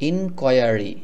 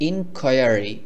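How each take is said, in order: First: The middle is said with a 'kwire' sound. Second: The same.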